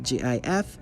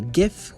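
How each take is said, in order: First: It begins with a soft J sound. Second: It begins with a hard G sound.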